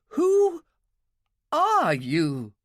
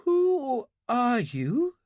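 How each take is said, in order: First: Much higher and louder, panicked repeat; the fear breaks through on the second ask; frightened cry. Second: Put-on high, slow, trembling question from a frightened girl; shaking with fear. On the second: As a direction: ask it half-awake and scared, slowly. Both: A narrator's reading. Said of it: "Her voice was shaking".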